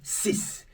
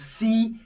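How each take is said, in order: First: The final consonant is a clear s sound. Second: The final consonant is not pronounced at all. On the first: The number stands alone. "when pronouncing ten and six on their own, you sound this" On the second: A consonant-initial word follows. "followed by a word that starts with a consonant, the X is silent"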